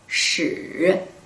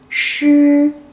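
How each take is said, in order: First: The pitch dips low and then rises. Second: The pitch stays high and level. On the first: It means history. "third tone, curved tone could be history" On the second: It means lion. "high flat tone could be lion"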